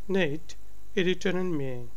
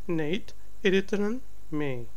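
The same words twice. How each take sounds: No difference in how they are said.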